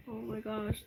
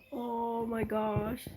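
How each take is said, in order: First: Said in the usual way. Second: Slow, breathless gasp of awe; drawn-out awed oh my gosh; gasping surprise. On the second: Real, not acted. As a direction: gasp it out, stunned by the gift. Gasping at an opened gift.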